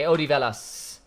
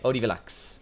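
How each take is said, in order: First: The name ends with an 's' sound. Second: The name ends with a 'ks' sound. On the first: The speaker calls it right. "it's an S" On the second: The speaker calls it wrong. "never mind the X"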